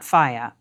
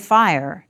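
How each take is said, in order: First: It is said like 'faya'. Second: It is said like modern American 'fire'. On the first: This is how the word sounded in Shakespeare's English. "not faya" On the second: This is how the word is said in America today. "but we do say fire"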